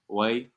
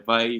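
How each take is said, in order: First: The word begins with a W sound. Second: The word begins with a V sound. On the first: "Sometimes the V could be like wa" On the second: "Sometimes the V could be like wa"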